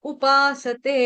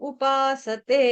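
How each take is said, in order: No difference in how they are said.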